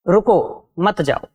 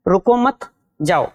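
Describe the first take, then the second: First: रुको alone, a break, then मत जाओ joined; pause after रुको. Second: रुको मत as one unit, a break, then जाओ alone; pause after मत. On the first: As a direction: stop after रुको and say मत जाओ as one unit. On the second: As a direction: run रुको मत together and stop before जाओ. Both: Shown as a demonstration. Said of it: "आप दोनों का उच्चारण करके देखें".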